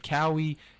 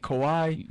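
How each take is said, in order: First: The name is said like 'Cowie'. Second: The name is said like 'Kawhi'. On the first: The speaker calls it wrong. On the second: The speaker calls it right.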